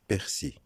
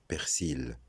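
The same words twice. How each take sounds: First: "persil" with a silent final L; correct pronunciation. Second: "persil" with the final L sounded; wrong pronunciation. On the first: Teacher giving learners the right form, correctly pronounced without L. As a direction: say "persil" as per-SEE, ending on the vowel. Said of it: "la bonne prononciation". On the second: Teacher showing a common error in persil, mispronounced with final L. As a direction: say "persil" as per-SEEL, holding the L. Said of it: "C'est faux de dire". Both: Shown as a demonstration.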